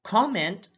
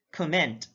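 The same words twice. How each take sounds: First: COMment, high full COM; careful demo of COMment; stress on first syllable. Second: ComMENT, second syllable stressed; careful demo of comMENT. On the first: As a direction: say "comment" as KAH-ment. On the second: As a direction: say "comment" as kuh-MENT. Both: Shown as a demonstration. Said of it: "difference in terms of sound".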